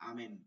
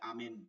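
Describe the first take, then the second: The two takes are said the same way.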